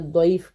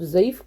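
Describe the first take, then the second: First: The word begins with a d sound. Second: The word begins with a z sound. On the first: "या दौद कह लें" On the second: "ज़ौद कह लें"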